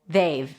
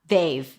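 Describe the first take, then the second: Both takes have the same delivery.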